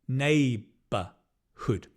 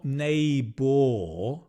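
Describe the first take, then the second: First: The second syllable is unstressed and reduced. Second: The second syllable is stressed with a full vowel. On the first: The speaker calls it right. "we stress nay and we don't stress b" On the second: The speaker calls it wrong. "it's not neighbor"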